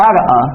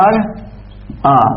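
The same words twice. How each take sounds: First: Said in the usual way. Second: Drawn out slowly. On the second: Shown as a demonstration. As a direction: stretch أرأى very slowly, syllable by syllable. (مدّ الكلمة ببطء شديد) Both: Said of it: "شنو أصلها؟".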